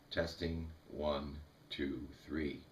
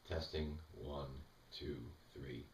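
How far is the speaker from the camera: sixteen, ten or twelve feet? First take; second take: ten feet; sixteen feet. First: The voice comes from about ten feet away. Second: The voice comes from about sixteen feet away. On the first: "I am now ten feet from the camera" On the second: "I'm now sixteen feet from the camera"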